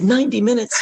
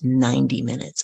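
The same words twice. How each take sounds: First: Astonished retold yelp; alarmed disbelief. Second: Said in the usual way. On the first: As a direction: throw it back as a shocked question. Echoes length in alarm. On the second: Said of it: "She leans in and she says".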